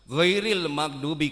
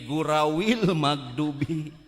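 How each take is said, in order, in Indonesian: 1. Kata pertama diucapkan dengan jelas. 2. Kata pertama diucapkan cadel seperti ompong.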